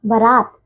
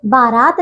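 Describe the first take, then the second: First: बारात with a short first vowel: baraat, pitched low; correct pronunciation. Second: बारात with a long first "baa"; mispronunciation. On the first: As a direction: clip the first syllable of बारात. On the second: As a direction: hold the first vowel of बारात. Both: Shown as a demonstration. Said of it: "बारात नहीं".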